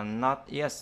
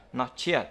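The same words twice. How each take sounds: First: Said in the usual way. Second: "not yet" said as not-chet; nối âm ch. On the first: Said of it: "không có đọc là not yet". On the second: Shown as a demonstration. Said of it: "mà đọc là not yet". (đọc "not yet" thành not-chét)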